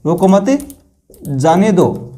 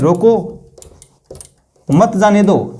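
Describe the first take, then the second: First: The pause comes right after 'mat'. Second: The pause comes right after 'roko'.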